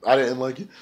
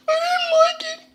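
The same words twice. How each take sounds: First: Said in the usual way. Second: Very high, drawn mock voice; comic squeal. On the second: Reviewer repeats his verdict on the interview, in comic squeal. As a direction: squeak it out in an exaggerated falsetto.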